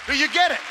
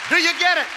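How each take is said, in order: The two takes are said the same way.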